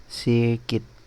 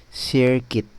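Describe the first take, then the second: The two takes are said the same way.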